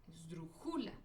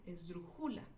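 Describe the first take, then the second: The two takes are said the same way.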